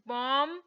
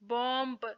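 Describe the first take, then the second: First: No b sound is heard at the end. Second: A b sound is heard at the end. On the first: The speaker calls it right. "बल्कि" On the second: The speaker calls it wrong. "हम ऐसे नहीं पढ़ेंगे"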